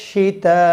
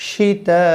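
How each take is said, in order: No difference in how they are said.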